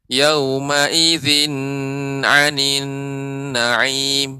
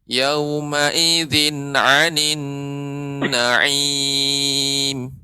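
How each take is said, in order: First: The syllable zin is drawn out long. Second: The syllable zin is kept short. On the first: The speaker calls it wrong. "Bedakan kalau saya beri tempo zinnya. ... ini yang keliru" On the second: The speaker calls it right. "Yang benar"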